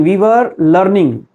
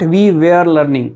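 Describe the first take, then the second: First: "were" as wur in a slow phrase; "were" slow and central, wur; correct were. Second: "were" as where, in a slow phrase; "were" slowly mispronounced ve-r; wrong were. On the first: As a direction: say "were" with an uh vowel, rhyming with fur. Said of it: "We can say we were". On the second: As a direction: say "were" with an open e as in air. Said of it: "not we were learning". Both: Shown as a demonstration.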